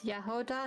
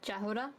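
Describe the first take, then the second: First: The name begins with a Y sound. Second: The name begins with a J sound. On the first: The speaker calls it right. "the J is like a Y" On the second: The speaker calls it wrong. "not Jahoda"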